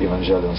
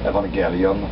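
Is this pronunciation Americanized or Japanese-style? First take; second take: Americanized; Japanese-style. First: The word is said in an Americanized pronunciation. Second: The word is said in a Japanese-style pronunciation. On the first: It is adapted to English speakers. "I would just uh, Americanize a little bit" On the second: It follows the Greek origin of the word. "maybe it should be pronounced um, Evangelion. That's how they pronounce it in Japan"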